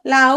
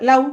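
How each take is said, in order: First: লাউ stretched out with a long, full উ; wrong full vowel. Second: লাউ short, the final উ only half sounded; half vowel. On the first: Teacher showing students what not to do, লাউ with a drawn-out উ. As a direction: draw out both vowels of লাউ. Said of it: "না, আমি লাউ". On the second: Teacher correcting the long version for students, লাউ with a short final উ. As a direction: say লাউ briefly, gliding into a short উ. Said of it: "অর্ধেকে শেষ হলো". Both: Shown as a demonstration.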